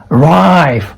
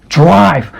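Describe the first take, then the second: Both takes have the same delivery.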